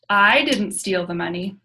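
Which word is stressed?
I. The stress is on the word I.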